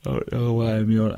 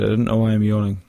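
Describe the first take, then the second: First: Talking mid-yawn. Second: Said in the usual way. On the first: Real, not acted. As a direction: say it through a yawn.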